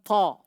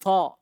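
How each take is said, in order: No difference in how they are said.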